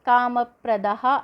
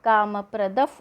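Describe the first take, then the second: First: The word ends with a breathy h sound. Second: The word ends with a breathy f sound. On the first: This is how the text is written. "ಕಾಮಪ್ರದಃ ಇರುತ್ತೆ" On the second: This is how it is recited. "ಕಾಮಪ್ರದಫ್ ಅಂತ ನಾವು ತಗೊಳ್ತೀವಿ"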